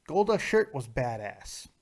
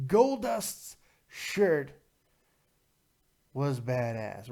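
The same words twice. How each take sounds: First: Said in the usual way. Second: Very slow, with a long pause before BADASS; slow emphatic repeat. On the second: Real, not acted. Repeats phrase slowly for emphasis.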